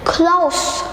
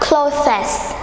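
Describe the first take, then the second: First: The silent letter is dropped, one syllable only. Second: The silent letter is sounded, adding a syllable. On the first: The speaker calls it right. "it's close, close. So A is a silent letter, so we don't pronounce it" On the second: The speaker calls it wrong. "not closest"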